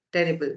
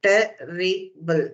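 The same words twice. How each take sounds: First: Said in the usual way. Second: Terrible, stretched slowly over each syllable; terrible modelled slowly, syllable by syllable; slow and clear. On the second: Shown as a demonstration. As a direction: draw out terrible slowly for the students.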